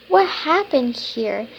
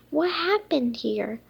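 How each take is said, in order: First: Louder, more worried question; louder second reading; louder reread. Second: Said in the usual way. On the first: Shown as a demonstration. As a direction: ask it again with more alarm. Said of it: "What happened here? (first read)". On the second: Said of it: "What happened here? (reread)".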